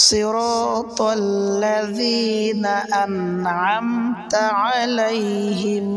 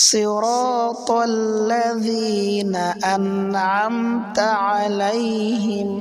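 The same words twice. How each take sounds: No difference in how they are said.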